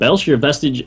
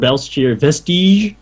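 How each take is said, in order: First: The name is said with an English accent. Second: The name is said with a French accent.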